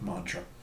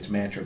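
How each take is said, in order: First: The first vowel is the 'o' of 'mon'. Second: The first vowel is the 'a' of 'man'. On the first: This is how many people commonly say it. "a lot of people pronounce it" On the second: This is how the spelling suggests it.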